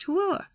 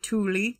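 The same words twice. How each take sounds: First: "Tooele" said as too-WILL-uh; correct local pronunciation. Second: "Thule" said as TOO-lee; alternative local pronunciation. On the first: Host teaching listeners the county name, "Tooele" as too-WILL-uh. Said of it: "It's pronounced". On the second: Host passing on how some people say it, "Thule" as TOO-lee. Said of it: "Some people pronounce it". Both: Shown as a demonstration.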